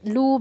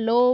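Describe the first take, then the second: First: The vowel after 'l' sounds like 'u'. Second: The vowel after 'l' sounds like 'o'. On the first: The speaker calls it wrong. "লু বলা যাবে না" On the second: The speaker calls it right. "লো বলতে হবে"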